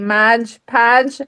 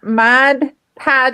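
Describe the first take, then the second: First: The first word ends in a J sound. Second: The first word ends in a plain D sound. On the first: "I say Modge Podge. I try not to say it that way" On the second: "for Ma Mod Podge"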